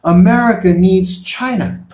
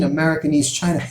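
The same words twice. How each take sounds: First: Loud, higher, emphatic answer; firm statement. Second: Mocking disbelief. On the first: Real, not acted. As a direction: state it as a plain fact, hard. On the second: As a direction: mimic the doubter laughing it off. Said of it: "they may laugh at that, like".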